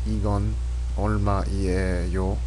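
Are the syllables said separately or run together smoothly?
separately. Each syllable is stressed and said separately. It makes you sound foreign. The speaker calls it wrong. "you wouldn't kind of emphasize each syllable, so you wouldn't say"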